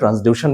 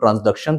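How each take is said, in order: First: The middle syllable sounds like 'dew' without a k. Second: The middle syllable sounds like 'duck' with a k. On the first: "कहीं कहीं ट्रांसड्यूशन भी pronounce करते हैं" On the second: "कभी कभी इसको हम लोग ट्रांसडक्शन प्रोनाउंस करते हैं"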